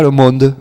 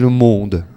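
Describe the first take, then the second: First: The vowel in 'monde' is said plainly. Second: The vowel in 'monde' is strongly rounded. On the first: "elle disait pas le monde" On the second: "Elle arrondissait"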